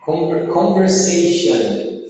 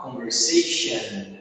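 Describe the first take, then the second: First: Slow "conversation" modelled with final "on"; wrong "on" ending. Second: Slow, softer "conversation" ending in "shun"; correct "an" ending. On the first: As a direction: finish "conversation" on a full "shon". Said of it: "Só que fala da forma errada". ("conversation" devagar, com "on" no final) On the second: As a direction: reduce the final vowel of "conversation" to schwa. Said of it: "a gente vai falar com som de an". ("conversation" com final reduzido, som de "an") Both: Shown as a demonstration.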